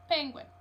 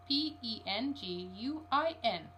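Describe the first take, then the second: First: Penguin said whole and louder, stress on PEN; emphatic word. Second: P E N G U I N spelled letter by letter, slowly; slow letter-by-letter spelling of P E N G U I N. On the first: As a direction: put weight on Penguin as one firm word. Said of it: "said Mister Popper". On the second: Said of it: "he had better spell it". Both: Acted.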